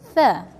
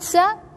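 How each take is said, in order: First: The word begins with a th sound. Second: The word begins with an s sound. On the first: The speaker calls it right. "Put your tongue out and say tha" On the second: The speaker calls it wrong. "Once you pronounce it sa, you will change the meaning"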